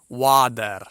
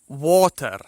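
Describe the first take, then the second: First: It is said in an American accent. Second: It is said in a British accent. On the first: "rather than the American water" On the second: "the British water"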